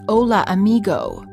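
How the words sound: It is said with an American accent.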